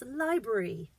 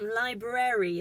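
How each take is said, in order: First: The word is said quickly with syllables squashed. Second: Every syllable of the word is pronounced clearly. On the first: "you say it quickly" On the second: "technically right"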